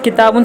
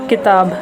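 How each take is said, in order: First: The word ends with an added 'un' sound. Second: The word ends without the 'un' sound.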